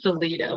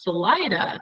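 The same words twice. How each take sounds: First: The name is said with a Spanish-style pronunciation. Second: The name is said with an English-style pronunciation. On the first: This is the original name, meaning exit. "originally it was Salida, which is Spanish for exit" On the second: This is how the town is called today. "it's now pronounced Salida"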